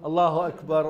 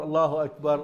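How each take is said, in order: No difference in how they are said.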